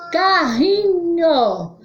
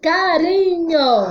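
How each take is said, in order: First: "Carrinho" higher and drawn out, RR like H; slow, high "Carrinho" with a breathy h; strong R. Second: "Carinho" higher and drawn out, R tapped; slow, high "Carinho" with one light tongue tap; weak R. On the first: Teacher contrasts sounds for pupils, drawn-out "Carrinho" with h-like RR. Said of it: "Som forte". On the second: Teacher contrasts sounds for pupils, drawn-out "Carinho" with tapped R. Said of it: "Som fraco". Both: Shown as a demonstration.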